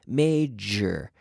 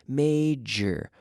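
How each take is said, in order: No difference in how they are said.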